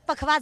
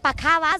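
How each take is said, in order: First: The middle syllable is shortened in the word. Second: The word is said with all three full syllables. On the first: This is the everyday shortened form. "आपण संक्षिप्त करून ते पखवाज म्हणतो" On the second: This is the proper original form. "खर तर त्याचा उच्चार पखावाज आहे"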